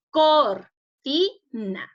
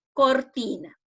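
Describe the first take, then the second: First: "Cortina" very slowly split into cor, ti, na; syllable by syllable. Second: Said in the usual way. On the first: Shown as a demonstration. Teacher divides the word for pupils at home, "Cortina" syllable by syllable. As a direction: say "Cortina" in separate, drawn-out syllables with gaps. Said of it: "está dividida en sílabas". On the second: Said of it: "Esta palabra cortina está dividida en sílabas".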